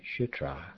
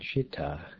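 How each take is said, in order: First: The second syllable has an R sound. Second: The second syllable has no R sound.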